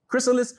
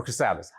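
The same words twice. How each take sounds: First: "chrysalis" said KRISS-uh-liss; first-syllable stress pronunciation. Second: "chrysalis" said kruh-SAL-iss; second-syllable stress pronunciation. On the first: Coach unsure how it's pronounced, offers "chrysalis" as KRISS-uh-liss. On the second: Coach unsure how it's pronounced, offers "chrysalis" as kruh-SAL-iss. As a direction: put the weight mid-word in "chrysalis", kruh-SAL-iss. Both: Shown as a demonstration. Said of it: "however you pronounce it".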